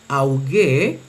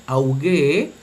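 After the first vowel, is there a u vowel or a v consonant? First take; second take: u vowel; u vowel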